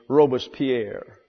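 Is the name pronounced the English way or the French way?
French. The name is said with a French pronunciation. "The French pronunciation is"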